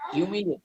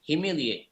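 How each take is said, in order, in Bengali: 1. প্রথম অংশ 'hyoo' উচ্চারণ হয়। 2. প্রথম অংশ 'hih' উচ্চারণ হয়। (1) "হিউমিলিয়েট না" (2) "প্রনাউন্স করতে হবে হিমিলিয়েট"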